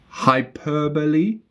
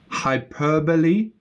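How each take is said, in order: Both takes have the same delivery.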